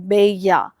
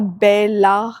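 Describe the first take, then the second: First: The double L is said as a Y sound. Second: The double L is said as an L sound. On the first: The speaker calls it right. "It's बेया होता है" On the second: The speaker calls it wrong. "Not जैसे कि बेला नहीं होता है"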